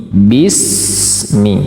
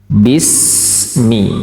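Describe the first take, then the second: No difference in how they are said.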